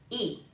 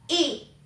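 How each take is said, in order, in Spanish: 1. El tono es corto y sin marca. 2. El tono cae bruscamente desde alto.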